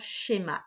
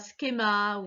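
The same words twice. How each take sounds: First: The word begins with an sh sound. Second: The word begins with a sound other than sh. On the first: The speaker calls it right. "c'est vraiment schéma" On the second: The speaker calls it wrong. "c'est pas schéma"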